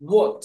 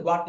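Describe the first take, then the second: First: What as "wawt", rounded vowel; corrected rounded vowel. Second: হোয়াট as "waat", open "ah"; common wa pronunciation. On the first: Teacher corrects the common pronunciation, what as rounded "wawt". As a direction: say what with "aw" in place of "ah". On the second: Teacher shows what learners say, হোয়াট as "waat". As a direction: say হোয়াট with a plain "wa". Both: Shown as a demonstration. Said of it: "উচ্চারণ হোয়াট না".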